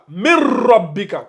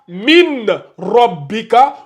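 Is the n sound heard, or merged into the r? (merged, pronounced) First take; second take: merged; pronounced. First: The n merges fully into a doubled r. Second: The n is pronounced separately before the r. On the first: The speaker calls it right. "On fait la liaison. C'est-à-dire, on fait la fusion" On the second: The speaker calls it wrong. "tu vas pas lire ça min robbika"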